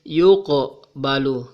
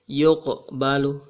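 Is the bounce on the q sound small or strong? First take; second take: strong; small. First: The q sound has a strong echoing bounce. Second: The q sound has a small echoing bounce. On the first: The speaker calls it wrong. "Jangan dibaca yuqbalu, tetapi bergetarnya sedikit ya" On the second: The speaker calls it right. "atau bergetarnya kecil"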